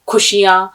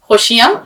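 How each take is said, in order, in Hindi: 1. यह फूंक वाली, रुकी हुई k ध्वनि से शुरू होता है। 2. यह गले की खरखरी संघर्षी ध्वनि से शुरू होता है।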